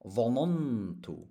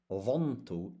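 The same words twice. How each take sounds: First: ظننت said slowly as three syllables, dha-nan-tu; ظننت drawn out with a second nun, dha-nan-tu; opened-up form. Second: ظننت said as two syllables, dhan-tu; ظننت with the second nun left closed, dhan-tu; wrong closed-up form. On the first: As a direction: open up ظننت so both nuns sound, dha-NAN-tu. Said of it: "we open up the verb". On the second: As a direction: run the nuns of ظننت together as one, dhan-tu. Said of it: "It's not". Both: Shown as a demonstration.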